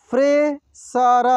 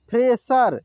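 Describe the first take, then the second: First: fresher drawn out slowly, syllable by syllable; slow sounding out. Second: Said in the usual way. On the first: Shown as a demonstration. Teacher slowly sounds out fresher for students. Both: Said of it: "एक एक मात्रा को अलग अलग करके".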